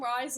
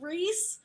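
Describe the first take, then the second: First: The name rhymes with 'rice'. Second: The name rhymes with 'Reese'. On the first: "but I call him Rise in my sand" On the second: "Sorry, it's Rhys"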